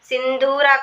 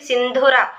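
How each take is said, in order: First: The second syllable has a long vowel. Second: The second syllable has a short vowel. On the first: The speaker calls it wrong. "సింధూర కాదండి" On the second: The speaker calls it right. "అది సింధుర"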